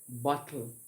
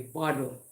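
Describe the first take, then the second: First: It is said with a Jamaican accent. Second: It is said with an American accent.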